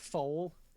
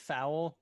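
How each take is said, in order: First: The vowel sounds like 'oh' in 'go'. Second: The vowel sounds like 'ow' in 'cow'. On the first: The speaker calls it right. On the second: The speaker calls it wrong.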